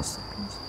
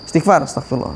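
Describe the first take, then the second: First: Astagfirullah fully whispered under the breath. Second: Said in the usual way. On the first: Shown as a demonstration. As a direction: breathe astagfirullah out as a private prayer. Demonstrating quick istighfar.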